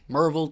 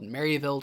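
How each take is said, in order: First: The name is said the local way. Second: The name is said the standard way.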